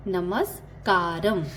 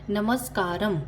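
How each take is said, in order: First: नमस्कारम spelled out slowly, syllable by syllable; slow, drawn-out teaching repeat. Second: Said in the usual way. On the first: Shown as a demonstration. Teacher slowly repeats Telugu greeting for students, drawn out. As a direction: stretch नमस्कारम out so learners can copy it. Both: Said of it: "hello को तेलुगु में कैसे कहते हैं".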